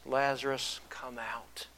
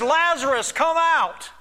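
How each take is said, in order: First: Low, soft, falling away to near whisper; hushed retold call. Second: High, loud commanding call. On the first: Preacher quoting Jesus' call to Lazarus, hushed. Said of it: "Jesus called in a loud voice". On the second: Acted. Jesus calling Lazarus out of the tomb, loud voice. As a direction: call it out as if summoning the dead. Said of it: "In a loud voice, he says".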